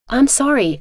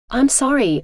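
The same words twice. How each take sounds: First: Whimpered. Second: Sobbing. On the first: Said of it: "she whimpered". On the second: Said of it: "Miranda sobbed". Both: A narrator's reading.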